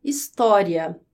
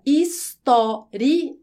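First: "História" as one word, final I and A glided together; vowels run together. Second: "história" very slowly as his, tó, ri, a; separated pronunciation. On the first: Teacher showing the diphthong pronunciation, vowels joined. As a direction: say "História" connected, "ria" as a single syllable. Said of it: "I e o A juntinhos". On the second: Teacher showing the hiatus pronunciation, syllables pulled apart. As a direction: pull "história" apart, final I and A in separate beats. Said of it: "história de uma forma mais separada". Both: Shown as a demonstration.

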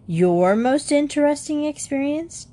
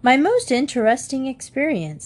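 First: Mocking rise on interesting; jeering. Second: Said in the usual way. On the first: Younger brother mocking Jan's theme title, jeering. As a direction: sneer the title back at him. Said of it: "jeered Jody". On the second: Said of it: "said Jan".

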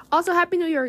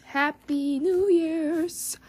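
First: Said in the usual way. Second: Stretched, higher sing-song happy new year's; slow, lilting happy new year's to the listeners; drawn-out greeting. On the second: Real, not acted. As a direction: draw the greeting out like a little tune.

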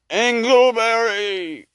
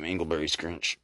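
First: Slow high drawn-out ghost call; ghostly wail. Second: Said in the usual way. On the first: Acted. Ghost calling the miser by his first name, wailing. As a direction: moan the name like a haunting spirit. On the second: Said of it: "That was his first name".

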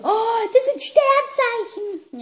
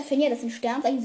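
First: High, long drawn-out gasp of realisation; mock shock. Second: Said in the usual way. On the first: Imitating her friend finding out about star signs, exaggeratedly shocked. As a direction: imitate her amazed, slow, high-pitched discovery. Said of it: "Sie war sehr schockiert". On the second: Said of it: "ich so".

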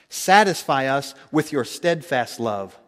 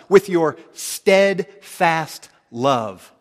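First: Said in the usual way. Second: "With your steadfast love" stretched very slow and loud; slow, loud, deliberate "With your steadfast love"; slow emphasis. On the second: Shown as a demonstration. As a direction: drag out "With your steadfast love" word by word, leaning on "With".

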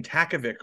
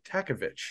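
First: TAKOVIC ending in a hard "vick"; "ick" ending. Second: TAKOVICH ending in "vitch"; "itch" ending. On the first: Host comparing an alias's pronunciations, "vick" ending. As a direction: say TAKOVIC with a final K sound. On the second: Host offering the other pronunciation, "vitch" ending. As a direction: say TAKOVICH with a final CH sound. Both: Shown as a demonstration. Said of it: "or is it Takovich".

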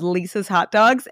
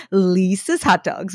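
First: Said in the usual way. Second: LISA'S stretched out slowly, then Hot Dogs; drawn-out catchphrase. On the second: Retold or imitated. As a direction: imitate the guys, dragging out the first vowel of Lisa's. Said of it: "they always, they go".

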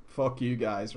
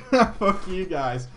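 First: Said in the usual way. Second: Amused, drawn-out jokey swearing; laughing retort. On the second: Real, not acted. Streamer cursing his viewers in fun, laughing. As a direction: laugh it off at them.

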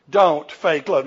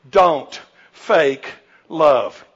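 First: Said in the usual way. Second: Very slow, every word weighted; preacher driving home point one, very slow; slow emphatic point. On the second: Real, not acted. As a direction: drag out don't fake love. First point of the sermon.

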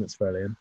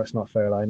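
First: "Fairlane" said as fair-lean, softer; the other pronunciation of Fairlane. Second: "Fairlane" said as fair-lane with a long i; one pronunciation of Fairlane. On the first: Teasing his friend's car pronunciation, "Fairlane" as fair-lean. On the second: Correcting his friend on American cars, "Fairlane" as fair-lane. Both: Shown as a demonstration.

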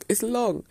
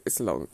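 First: Higher, louder it's long; exasperated, pitched-up emphasis; emphatic repeat. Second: Low, dragged it's long; weary, low emphasis; drawn-out complaint. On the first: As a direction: stress LONG up high. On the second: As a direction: sigh it out low and heavy. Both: Shown as a demonstration.

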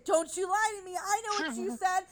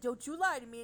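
First: Hammed-up accusation, much higher and louder; play-scold him with a teary, overblown wail; mock-outraged whine, near a playful cry; mock accusing. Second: Said in the usual way.

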